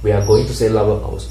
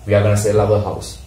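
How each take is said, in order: First: Going to is said in full, more slowly. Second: Going to is reduced to gonna, said fast. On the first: This is how a learner would normally say it. "අපි නම් කියන්නේ we are going to sell our house" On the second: This is how native speakers say it. "But native speakers say we are gonna sell our house. They speak very fast"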